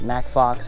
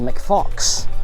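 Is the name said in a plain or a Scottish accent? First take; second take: plain; Scottish. First: The name is said in a plain accent. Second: The name is said in a Scottish accent. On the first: "it's probably pronounced Mack Fox" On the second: "put a little bit of a, I don't know, Scottish accent on it"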